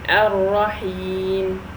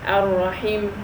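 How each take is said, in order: First: The vowel before the final m is long. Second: The vowel before the final m is short. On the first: The speaker calls it right. "so we elongate it by two long. So I say Ar-Rahim" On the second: The speaker calls it wrong. "If I make it only a kasra and um, I disregarded the ya, that would be ar-rahim"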